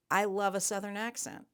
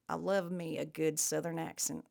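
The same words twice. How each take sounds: First: Said in the usual way. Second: Light Southern accent. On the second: Shown as a demonstration. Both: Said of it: "Pardon my Southern accent".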